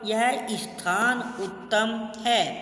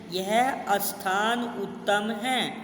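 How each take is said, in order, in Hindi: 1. 'sthaan' सीधे s ध्वनि से शुरू होता है। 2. 'sthaan' से पहले एक अतिरिक्त स्वर जोड़ा जाता है।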